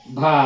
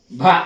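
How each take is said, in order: First: భా with a breathy bh and drawn-out a; aspirated, long. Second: భా with a puff of breath and brief a; aspirated, short. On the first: Teacher reads bha with deergham, భా held long. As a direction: hold the vowel of భా long. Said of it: "భాకు దీర్ఘం ఇస్తే". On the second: Teacher shows the mahaprana letter, భా short and aspirated. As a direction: stress the breathy bh of భా, keep it short. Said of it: "దీనికి ఒత్తు పలకాలి". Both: Shown as a demonstration.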